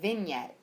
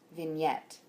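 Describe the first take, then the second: First: The stress is on the first syllable. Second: The stress is on the second syllable. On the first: The speaker calls it wrong. "You were saying vignette" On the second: The speaker calls it right. "The stress is on the second syllable"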